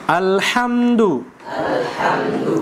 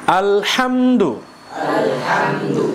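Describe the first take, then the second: The two takes are said the same way.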